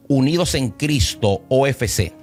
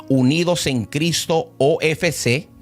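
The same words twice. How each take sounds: The two takes are said the same way.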